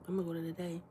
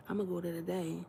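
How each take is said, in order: Both takes have the same delivery.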